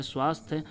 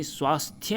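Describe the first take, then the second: First: स्वास्थ्य cut to "swasth"; incorrect pronunciation. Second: स्वास्थ्य with final YA; full Y glide closing स्वास्थ्य; correct pronunciation. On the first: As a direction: say स्वास्थ्य without the Y glide. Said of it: "नहीं होता दोस्तों". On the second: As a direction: say स्वास्थ्य as "swasthya". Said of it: "सही वर्तनी स्वास्थ्य होता है". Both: Shown as a demonstration.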